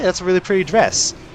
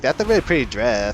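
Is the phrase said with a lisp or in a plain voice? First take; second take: plain; lisp. First: It is said in a plain, ordinary voice. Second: It is said in a put-on lisping voice.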